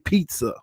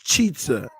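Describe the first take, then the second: First: The word begins with a 'p' sound. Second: The word begins with a 'ch' sound. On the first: This is the usual way to say it. "he doesn't say pizza" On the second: This is how the child says it. "It's chizza, like the Patriots cheat"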